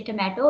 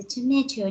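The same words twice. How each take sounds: First: Tomato with a crisp t and open middle, "tu-MAT-o"; local pronunciation. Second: Tomato with ch for the t and an ay middle, "chu-MAY-chu"; accented pronunciation. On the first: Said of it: "and we say tomato". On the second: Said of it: "there is some way like we say tomato". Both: Shown as a demonstration.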